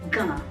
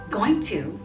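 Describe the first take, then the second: First: The words are reduced and blended together. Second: Both words are said fully and separately. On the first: This is informal speech. "some people say gonna in informal speech" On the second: This is the standard form. "the standard form of saying it is going to"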